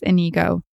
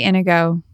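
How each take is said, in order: First: Inigo stressed on the middle, in-EE-go; partner's pronunciation. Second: Inigo stressed on the first syllable, IN-ih-go. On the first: Retold or imitated. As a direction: say Inigo as ih-NEE-go. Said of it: "I think my partner says Inigo". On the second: Shown as a demonstration. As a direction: say Inigo as IN-uh-go, weak middle. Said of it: "depends where you put the emphasis".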